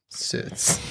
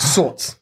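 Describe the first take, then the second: First: "Sorts" said as "serts"; odd vowel. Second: Said in the usual way. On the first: Shown as a demonstration. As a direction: mispronounce "Sorts" with an "er" vowel, hushed. Repeats the odd vowel jokingly.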